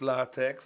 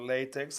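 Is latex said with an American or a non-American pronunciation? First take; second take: non-American; American. First: The word is said in a non-American way. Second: The word is said the American way.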